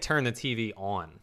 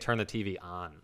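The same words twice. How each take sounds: First: The vowel in on is rounder, not open. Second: The vowel in on is an open ah. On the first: This is how the speaker's own group says it. "We say turn the TV on" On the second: This is how the other group says it. "they say turn the TV on. It's like A-H-N"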